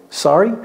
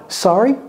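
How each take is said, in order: No difference in how they are said.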